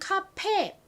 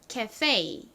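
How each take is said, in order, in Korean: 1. 한국식 발음입니다. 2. 미국 영어식 발음입니다. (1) "한국식 발음으로는 카페" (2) "영어식 발음으로는 ... 미국 사람들은 발음을 합니다"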